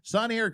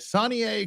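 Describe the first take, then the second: First: The name is run together as one word. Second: The name ends with a separate 'A' sound. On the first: The speaker calls it wrong. "you've consciously let me mispronounce that for two years" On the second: The speaker calls it right. "it's it's yay. Sonny A"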